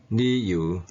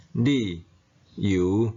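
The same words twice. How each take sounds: First: 理由 linked, with 理 changed from second to first tone; sandhi tone. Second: 理 and 由 said apart, each in its base tone; citation tones. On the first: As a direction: say 理由 as one word, with 理 in first tone. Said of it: "变调音". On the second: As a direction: read 理 then 由 separately, in citation tone. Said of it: "本调音". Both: Shown as a demonstration. Teacher illustrating the second-tone rule with 理由.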